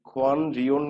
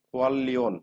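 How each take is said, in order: First: The middle consonants are pronounced as n and r. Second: The middle consonants are pronounced as a double l. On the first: The speaker calls it wrong. "এই খোয়ান রিয়ন না" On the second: The speaker calls it right. "এটা কি উচ্চারণ হবে জানেন? খোয়াল লিওন"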